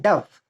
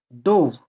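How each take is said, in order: First: "dove" with a short U, as in "love"; bird pronunciation. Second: "Dove" with a long O, as in "stove"; verb pronunciation. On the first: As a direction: say "dove" to rhyme with "glove". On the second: Teacher shows past form of dive, "Dove" with long O. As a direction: say "Dove" to rhyme with "rove". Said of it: "he dove into pond". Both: Shown as a demonstration.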